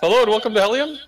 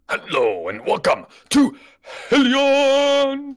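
First: It is said with little energy. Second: It is said with more energy.

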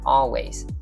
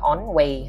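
First: The first syllable sounds like 'all'. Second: The first syllable sounds like 'on'. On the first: The speaker calls it right. "đừng có on way ha" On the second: The speaker calls it wrong. "Always không có on way ha"

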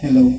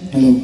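First: The voice sounds thinner, with little bass. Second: The voice sounds fuller, with more bass. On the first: "nakabypass po yan" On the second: "tumaba yung boses, nagkaroon siya ng bass"

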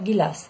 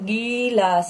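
First: The first vowel is short and quick. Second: The first vowel is drawn out long. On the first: The speaker calls it right. "मैंने उच्चारण कैसे किया" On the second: The speaker calls it wrong. "आप इसका उच्चारण गिलास नहीं कर सकते"

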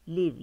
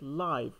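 First: It is said with the verb's pronunciation. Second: It is said with the adjective's pronunciation. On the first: It means to be alive or to reside. "yaşamak fiil anlamında" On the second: It means alive or living. "sıfat olarak live yani canlı"

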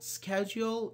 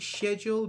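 First: The word is said in an American accent. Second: The word is said in a British accent. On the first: "schedule American" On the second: "schedule British"

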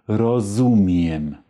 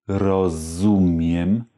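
Both takes have the same delivery.

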